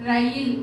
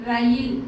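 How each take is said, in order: Both takes have the same delivery.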